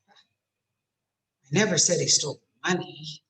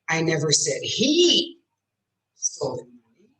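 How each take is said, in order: First: The word "money" is stressed. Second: The word "he" is stressed. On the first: He stole something other than money. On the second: A different person took it. "I said she did"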